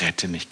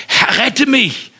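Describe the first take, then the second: First: Soft, low murmured plea "Rette mich"; hushed prayer for rescue; quiet plea. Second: High, loud, slow cry "Herr, rette mich!"; drowning man's shout for help; desperate cry. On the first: Shown as a demonstration. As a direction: plead "Rette mich" under your breath. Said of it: "rufe zu diesem Gott und sag". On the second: Acted. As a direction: scream "rette mich" while sinking. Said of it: "schrie er".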